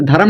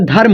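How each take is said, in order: First: धर्म as dha-ram, in two syllables; wrong split reading of धर्म, dha-ram; misread धर्म. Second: धर्म as dharm, one syllable; natural धर्म with no vowel before the m; correct धर्म. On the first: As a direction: put a vowel between r and m in धर्म. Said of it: "धर्म नहीं होता". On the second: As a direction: join r and m at the end of धर्म. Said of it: "धर्म होता है". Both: Shown as a demonstration.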